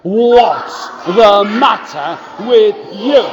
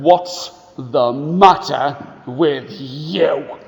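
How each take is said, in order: First: Put-on slow, louder mean-boy shout. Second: Put-on slow, low mean-boy growl; a bully looming over a crying child; slow, gruff mean boy. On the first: Shown as a demonstration. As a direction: call it out for the class to copy. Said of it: "Can you say that with me?". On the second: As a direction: sneer it slowly at the little boy. Mean boy's question.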